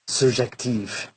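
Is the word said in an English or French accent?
French. It is said in a French accent.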